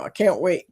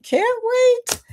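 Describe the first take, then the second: First: Said in the usual way. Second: Much higher, squealed with excitement; excited squeal. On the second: Real, not acted. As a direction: squeak it out, too eager to hold back. Excited anticipation of cruise.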